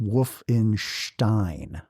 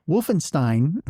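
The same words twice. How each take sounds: First: Wolfenstein with "stein" said as "shtine"; "stein" in Wolfenstein starts with a SH sound. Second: Said in the usual way. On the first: Shown as a demonstration. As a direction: say Wolfenstein slowly, ending in a German-style "shtine". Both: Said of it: "is actually pronounced Wolfenstein".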